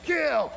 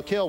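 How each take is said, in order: First: Recruit scream. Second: Said in the usual way. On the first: Retold or imitated. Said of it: "We're screaming". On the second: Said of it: "I want you to yell".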